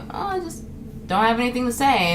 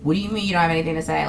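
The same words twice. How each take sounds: First: Mild excuse. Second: Rapid offended question; mock offended. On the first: Acted. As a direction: offer a small, gentle excuse. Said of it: "I'm just gonna tell you". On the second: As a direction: imitate someone taking offense, fast and low-key. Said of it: "like, offended".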